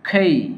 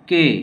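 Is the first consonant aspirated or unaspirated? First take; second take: aspirated; unaspirated. First: It starts with an aspirated k and gliding vowel. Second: It starts with an unaspirated k and plain vowel. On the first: The speaker calls it right. "সঠিক উচ্চারণ হচ্ছে খেই" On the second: The speaker calls it wrong. "এটা হচ্ছে কে"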